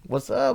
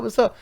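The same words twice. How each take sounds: First: High, swaggering what's up; pitched-up cocky brag; cocky greeting. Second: High, swaggering what's up, said again; pitched-up cocky brag; cocky greeting. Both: Retold or imitated. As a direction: strut it like you just won. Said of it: "Here's the cocky part".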